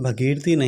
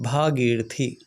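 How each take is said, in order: First: The first vowel is short. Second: The first vowel is long. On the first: The speaker calls it wrong. "लेकिन भगीरथी नहीं होता" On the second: The speaker calls it right. "शब्द है भागीरथी"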